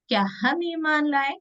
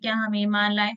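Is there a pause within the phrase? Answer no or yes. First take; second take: yes; no. First: The phrase has a short pause and changed tune. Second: The phrase runs on without any pause. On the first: The speaker calls it right. "हम थोड़ा रुक कर अलग तरीके से कहेंगे" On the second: The speaker calls it wrong. "सवाल हम तो ऐसे तो नहीं करेंगे ना"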